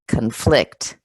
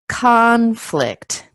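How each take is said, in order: First: The stress is on the second syllable. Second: The stress is on the first syllable. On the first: It is used as a verb. "the verb will have the stress on the second part of the word" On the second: It is used as a noun. "as a noun, conflict. It's on the first syllable"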